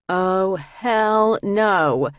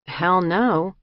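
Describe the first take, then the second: First: Long drawn-out, higher and louder disbelief; disbelieving. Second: Short emphatic denial, slightly raised. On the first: Narrator to her co-defendants on seeing the psych ward, drawn-out disbelief. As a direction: stretch it out in loud, incredulous refusal. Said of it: "a disbelieving and desperate laugh". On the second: Inmate answering whether Dublin is like this, brief emphatic denial. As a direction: knock the idea down briefly. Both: A narrator's reading.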